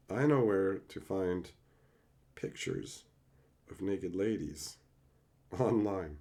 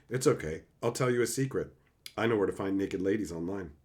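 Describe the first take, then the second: First: Hushed reread. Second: Quick, quiet read-out of a text message. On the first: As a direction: drop to a near murmur, pausing between phrases. Rereads text slowly, hushed. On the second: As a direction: rattle it off softly, like reading your screen. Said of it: "I'm texting somebody right now saying". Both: Shown as a demonstration.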